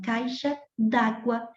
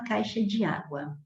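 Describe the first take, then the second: First: The vowel of de drops, merging into água. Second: The word de is said as a separate syllable. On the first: The speaker calls it right. "você fala que vai à loja comprar uma caixa d'água" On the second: The speaker calls it wrong. "Ninguém diz assim"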